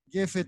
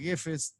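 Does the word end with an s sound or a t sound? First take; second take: t sound; s sound. First: The word ends with a t sound. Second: The word ends with an s sound. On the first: "depende de sefaradí"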